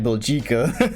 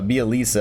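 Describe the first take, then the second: First: The name ends with a hard 'ka' sound. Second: The name ends with a 'tsa' sound. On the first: This is how the spelling looks when read. The speaker calls it wrong. "His name looked like Biljika" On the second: This is how the commentators say it. The speaker calls it right. "you pronounce that uh, Bielitsa"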